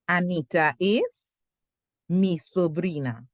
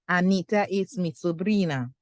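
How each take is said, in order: First: The sentence is broken up with a pause. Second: The sentence is said smoothly without a break. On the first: "So I'm putting my line here" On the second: "And then we put it together"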